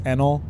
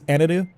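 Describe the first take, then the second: First: The name has two syllables, ending in an L. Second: The name has three syllables, ending in a vowel. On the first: The speaker calls it wrong. "so I read it as Enel" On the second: The speaker calls it right. "That's like the Japanese way to pronounce it"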